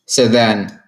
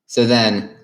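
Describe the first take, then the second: No difference in how they are said.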